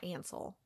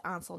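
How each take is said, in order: First: "Ansel" said with the A of "can"; flat American short A opening "Ansel"; name with short A. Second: "Ansel" said with an open AH first vowel; name with broad A. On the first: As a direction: say AN-sel for "Ansel". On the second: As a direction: say AHN-sel for "Ansel". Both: Shown as a demonstration. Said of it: "Like, I wanna say Ansel".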